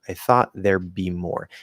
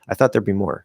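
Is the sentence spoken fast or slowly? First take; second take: slow; fast. First: It is spoken slowly and clearly enunciated. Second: It is spoken quickly at normal conversational speed. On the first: "I'm speaking a little more slower. I'm speaking a little more clearly" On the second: "normal speed or especially fast speed"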